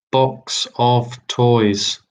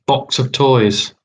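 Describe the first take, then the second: First: Box of toys stretched out slowly, each word drawn; slow repeat. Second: Said in the usual way. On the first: Shown as a demonstration. Quizmaster repeating the clue to the players, slowly drawn out. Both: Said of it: "Question three".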